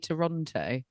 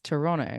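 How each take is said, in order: First: The name is said the non-Canadian way. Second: The name is said the Canadian way. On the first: The speaker calls it wrong. "Canadians don't say Toronto" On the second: The speaker calls it right. "you've got to say it in a Canadian"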